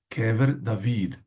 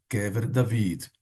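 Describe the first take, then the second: Both takes have the same delivery.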